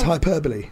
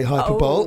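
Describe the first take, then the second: First: The word ends with four syllables, 'boh-lee'. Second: The word ends like 'bowl', as in 'hyper-bowl'. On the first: The speaker calls it right. "And it's hyperbole" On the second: The speaker calls it wrong. "I used to say hyperbole. I thought it's like some futuristic sport"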